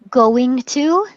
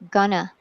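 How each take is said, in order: First: Both words are said fully and separately. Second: The words are shortened and run together.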